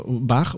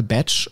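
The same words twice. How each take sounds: First: Bach said bax, German ch. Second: Batch said betch, English. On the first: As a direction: Bach with German ach sound. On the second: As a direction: Batch with tsch. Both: Shown as a demonstration. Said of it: "was auch immer".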